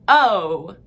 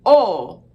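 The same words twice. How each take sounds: First: 'o' loud and gliding into oo; drawn-out diphthong 'o', as in oh; English o, wrong version. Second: 'o' as a loud, pure open vowel, no glide; Armenian o. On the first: Teacher showing what to avoid, exaggerated English vowel demo. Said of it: "not o". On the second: Teacher showing the o sound, forceful demo. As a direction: push out a steady, forceful 'o'. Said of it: "The o sound is". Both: Shown as a demonstration.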